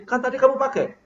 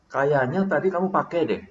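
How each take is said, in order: First: High, pointed accusation; accusing retort, pitched well up. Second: Casual, unaccusing reminder; merely remind, tentatively; easy suggestion in an everyday pitch; gentle reminder. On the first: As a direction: pin the blame on the listener. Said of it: "Bapak nuduh". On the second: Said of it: "Mengingatkan, sekedar mengingatkan". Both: Shown as a demonstration.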